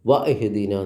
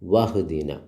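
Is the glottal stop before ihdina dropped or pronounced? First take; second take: pronounced; dropped. First: The glottal stop before ihdina is clearly pronounced. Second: The glottal stop is dropped, words run together. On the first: The speaker calls it wrong. "വ ഇഹ്ദിന എന്ന് പറയൂല" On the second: The speaker calls it right. "പിന്നെയോ വഹ്ദിന"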